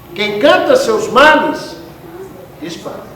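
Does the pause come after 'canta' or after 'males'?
after males. There is a pause after the word males. Whoever sings about their troubles scares people away.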